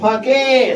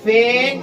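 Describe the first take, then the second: First: The a is short and final e sounded. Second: The final e is silent, the a long. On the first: The speaker calls it wrong. "गलत होगा" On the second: The speaker calls it right. "ई यहाँ पे क्या है? Silent है। इसलिए इसे हम पढ़ रहे हैं"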